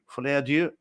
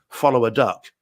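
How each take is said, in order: First: The last word ends in an open vowel. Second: The last word ends with a hard k sound. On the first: The speaker calls it right. "but actually it turns out it's filet adieu" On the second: The speaker calls it wrong. "We thought it was Joker follow a duck"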